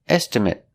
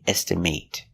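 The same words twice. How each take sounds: First: The last syllable has a short vowel, like 'mit'. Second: The last syllable has a long A, like 'mate'. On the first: It is used as a noun. "But if it's not a verb" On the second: It is used as a verb. "With the long A"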